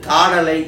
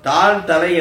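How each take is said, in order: First: It is said as one joined word. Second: It is said as two separate words. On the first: "ஒரு சொல்லாக மாறிவிட்டது" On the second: "இரண்டு சொல்"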